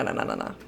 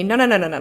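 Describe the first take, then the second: First: The same no's, dropped to a whisper; breathless whispered no, no. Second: A run of quick, louder no, no, no; frantic string of no's; rapid no's. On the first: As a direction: let the refusal fade into a whisper. The refusal dies to a whisper. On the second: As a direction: refuse it fast, over and over. Refusing the game prompt repeatedly. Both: Real, not acted.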